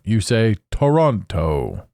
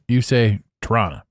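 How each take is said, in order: First: It is said the way outsiders say it. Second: It is said the way local residents say it. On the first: The speaker is not from the city. "If you're not from Toronto" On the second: The speaker is from the city. "If you're from Toronto"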